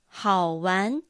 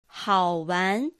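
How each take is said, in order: No difference in how they are said.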